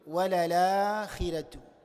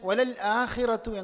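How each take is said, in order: First: The glottal stop is dropped and the words link. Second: A clear glottal stop comes before 'akhira'. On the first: "ഹംസിനെ എടുത്തു കളഞ്ഞുകൊണ്ട്" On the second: "ഹംസ് എന്ന അക്ഷരം വ്യക്തമാക്കി ഉച്ചരിച്ചുകൊണ്ട്"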